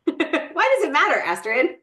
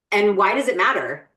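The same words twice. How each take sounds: First: Much higher, teasing repeat of the question; playful repeat. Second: Said in the usual way. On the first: Shown as a demonstration. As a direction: toss the question over to Astrid playfully.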